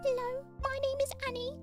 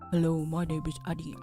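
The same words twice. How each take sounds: First: It is said in a high, light voice. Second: It is said in a deep, low voice.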